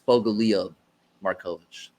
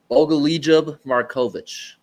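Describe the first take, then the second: First: The J sound in the first name is silent. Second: The J sound in the first name is pronounced. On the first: The speaker calls it right. "There, that's it. ... the J is silent" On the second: The speaker calls it wrong. "I pronounced the J"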